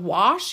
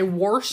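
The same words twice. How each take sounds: First: It uses the ordinary standard pronunciation. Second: It uses the grandfather's dialect pronunciation. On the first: This is how most people say it. "instead of wash" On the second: This is how an older relative said it. "Grandpa used to say wash"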